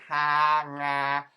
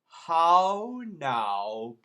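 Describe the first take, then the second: First: It is said in a Cockney accent. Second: It is said in a British accent.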